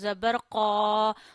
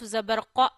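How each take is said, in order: First: The final vowel is drawn out long. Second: The final vowel is cut off suddenly. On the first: "We not read Zabar Zir Pesh by stretching. For example" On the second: "No, don't sudden pause"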